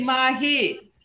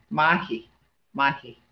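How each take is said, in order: First: Bright high "mahi" for very good. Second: A low, clipped "mahi" for tall. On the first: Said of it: "This is mahi". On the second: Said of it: "But this is mahi". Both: Shown as a demonstration.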